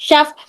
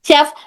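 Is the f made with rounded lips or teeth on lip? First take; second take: rounded lips; rounded lips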